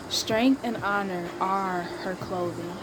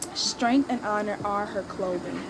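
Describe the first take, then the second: First: It is read slowly and deliberately. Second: It is read at a quicker, ordinary pace. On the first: Every word is being absorbed. The speaker calls it right. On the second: The words are read without really taking them in. The speaker calls it wrong.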